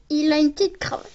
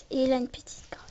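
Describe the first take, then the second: First: Said in the usual way. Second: Breathy whispered repeat; hushed whisper of the same line. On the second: Shown as a demonstration. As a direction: whisper it like a secret.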